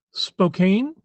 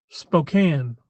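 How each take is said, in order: First: Spokane, rhymed with cane; Spokane with a long A. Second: Spokane, ending like can; Spokane with a short A. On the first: Streamer sounding out the town name, Spokane as spo-KAIN. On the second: Streamer giving the local way, Spokane as spo-KAN. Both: Shown as a demonstration. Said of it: "I've heard it both ways".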